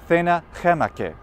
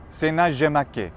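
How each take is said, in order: First: Latin spoken with a Spanish pronunciation. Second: Latin spoken with a French pronunciation. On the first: "how they pronounced that in Spain?" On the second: "what about in France?"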